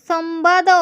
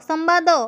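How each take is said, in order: Both takes have the same delivery.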